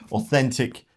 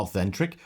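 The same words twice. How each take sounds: First: Said in the usual way. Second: Authentic repeated as the slip "authentric"; mispronounced authentic. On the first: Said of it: "sorry, th-, not authentic". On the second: Real, not acted. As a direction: say authentic with a stray r, "au-THEN-trik". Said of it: "not authentic".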